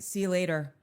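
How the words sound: It ends flatly, on a down note.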